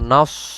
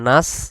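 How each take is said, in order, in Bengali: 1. এখানে ভারী, জোরালো s ধ্বনি। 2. এখানে হালকা, সাধারণ s ধ্বনি। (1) "নুন সদ জবর নস" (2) "নুন সিন জবর নাস"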